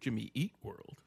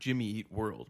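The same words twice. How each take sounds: First: It is said with an odd, weird emphasis. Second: It is said with normal, even emphasis.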